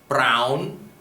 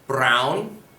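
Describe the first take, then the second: Both takes have the same delivery.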